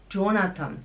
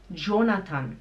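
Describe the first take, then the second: No difference in how they are said.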